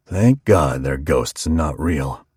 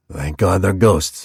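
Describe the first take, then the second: First: Low slow barber. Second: A hint of the barber, slowed on ghosts; lightly voiced barber. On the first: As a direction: lower and slowed, a rough barber's growl. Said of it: "Clyde said". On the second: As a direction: say it with mild relief, slowly. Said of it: "He brushed hairs". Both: A narrator's reading.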